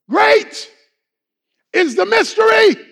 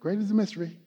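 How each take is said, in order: First: The phrase is shouted out loudly. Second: The phrase is said calmly at normal volume. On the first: It is an excited public confession. The speaker calls it right. "they will shout it out" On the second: It is a plain statement. The speaker calls it wrong. "He's not saying"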